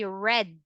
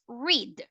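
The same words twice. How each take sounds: First: The vowel is short, like in 'red'. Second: The vowel is long, like in 'reed'. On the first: It is the past tense. "you're now going to pronounce that as red" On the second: It is the present tense. "So that is our present tense"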